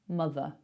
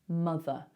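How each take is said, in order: No difference in how they are said.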